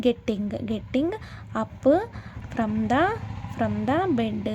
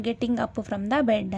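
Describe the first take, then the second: First: "getting... up... from the... bed" broken up with pauses; word-by-word pronunciation. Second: Said in the usual way. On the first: Shown as a demonstration. Teacher showing learners how to pronounce "getting up from the bed", slowly piece by piece. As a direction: sound out "getting up from the bed" piece by piece, repeating parts. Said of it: "అని pronounce చేస్తారనమాట". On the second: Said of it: "ఇంగ్లీష్లో ఏమంటారు".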